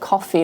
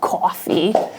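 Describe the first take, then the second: First: Said in a plain, neutral accent. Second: Said in a New York accent. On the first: "they don't say like coffee" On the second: "they're like coffee, New York"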